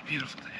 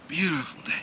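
First: Much softer murmured repeat; quiet echo. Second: Said in the usual way. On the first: Real, not acted. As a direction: say it again under your breath.

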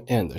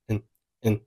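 First: Said in the usual way. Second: "and" softly reduced to "en"; weak form. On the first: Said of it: "其中and是弱读". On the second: Shown as a demonstration. Teacher showing learners weak "and", said as "n". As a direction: shrink "and" to a soft "n". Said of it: "and是弱读，读成了".

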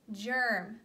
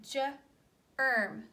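First: Said in the usual way. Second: Slowly sounded word. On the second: Shown as a demonstration. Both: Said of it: "this is the word germ".

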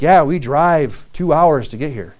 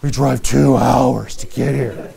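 First: Slow, grudging "two hours"; mock complaining. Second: Slow, with a laugh on "two hours"; cheerful, laughing. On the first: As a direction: grumble about the long drive. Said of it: "some people are like". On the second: Retold or imitated. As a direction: laugh off the long drive. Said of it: "But they weren't like".

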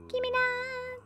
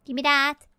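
First: Very high, drawn-out tiny voice; playful squeaky demand. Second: Loud, slightly raised grabby demand; playful demand. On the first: Player grabbing at an item, playful falsetto plea. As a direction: stretch it into a soft falsetto. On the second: Player grabbing at an item, playful loud demand. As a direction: demand it loudly, playfully greedy. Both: Pretend. Grabbing items, escalating repeats.

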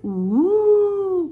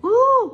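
First: Long, loud wailing "ooh"; high swooping ghost "ooh"; ghostly cry "ooh". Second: High, loud "ooh" of alarm; short high-pitched startled "ooh"; startled cry "ooh". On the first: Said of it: "cried the little ghost". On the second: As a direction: cry out like a startled little princess. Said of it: "cried the little princess". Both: A narrator's reading.

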